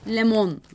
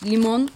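First: The first vowel is an e sound. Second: The first vowel is an i sound.

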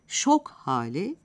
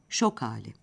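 First: The h sound of hali is heard. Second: The h sound of hali is dropped.

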